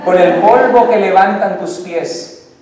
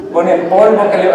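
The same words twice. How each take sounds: First: Slow, louder, savoured line; romantic recital. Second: Said in the usual way. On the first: Acted. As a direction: savour each word like a serenade. Poem to wife, slowed.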